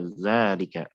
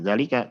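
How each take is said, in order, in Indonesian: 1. Vokal pertama panjang. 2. Vokal pertama pendek. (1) "tapi apa? Zalika. ada alif setelah zal" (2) "Bukan zalika"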